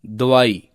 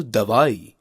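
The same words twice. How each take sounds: First: दवाई with a reduced first vowel; wrong pronunciation. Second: दवाई with a clear first a; correct pronunciation. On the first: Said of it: "अशुद्ध शब्द है". (दवाई का अशुद्ध उच्चारण, पहला स्वर दबा) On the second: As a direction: give दवाई a clear 'da' opening. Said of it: "शुद्ध शब्द है". (दवाई में साफ़ 'द') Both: Shown as a demonstration.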